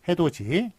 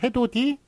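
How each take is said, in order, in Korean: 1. 마지막 음절은 j 소리로 시작해요. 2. 마지막 음절은 그냥 d 소리로 시작해요. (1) "해도지라고 발음됩니다만" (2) "해도디라고 쓴 앞에 게 맞고요"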